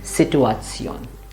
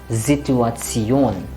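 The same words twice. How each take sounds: First: It begins with a hissing, voiceless S sound. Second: It begins with a buzzing, voiced Z sound. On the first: The speaker calls it wrong. "many students will instinctively say Situation because it is like in English" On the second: The speaker calls it right. "S followed by a vowel will become Z. It has to vibrate here"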